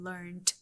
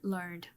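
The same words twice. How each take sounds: First: The word ends with a T sound. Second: The word ends with a D sound. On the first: This is the British form. "T after N" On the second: This is the American form. "so they use ed at the end"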